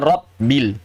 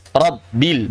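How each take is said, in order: First: "Rabbil" as rop-bil, devoiced first b; b turned p. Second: "Rabbil" slow, as rab-bil with voiced b; voiced double b. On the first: Teacher shows the mistake to avoid, "Rabbil" as rop-bil. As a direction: cut "Rabbil" with a p before bil. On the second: Teacher models the right sound, "Rabbil" with voiced double b. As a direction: keep the b voiced when holding it in "Rabbil". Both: Shown as a demonstration. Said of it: "bukan Rabbil".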